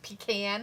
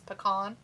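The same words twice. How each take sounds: First: It is said the northern US way. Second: It is said the southern US way. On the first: "But if you're from like the north, it's like pecan" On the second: "If you're from the if you're from the south south, it's pecan"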